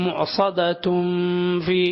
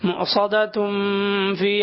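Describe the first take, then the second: No difference in how they are said.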